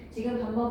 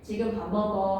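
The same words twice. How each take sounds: First: The pitch rises at the end. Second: The pitch falls at the end. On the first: It is a question. "하고 끝을 올리면 의문문이 된다" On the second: It is a statement giving information. "하고 끝을 내리면 평서문"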